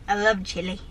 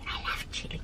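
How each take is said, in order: First: Said in the usual way. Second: A breathy whispered "I love chili"; a soft secret confession of love for chili. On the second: Real, not acted. Whispered repeat.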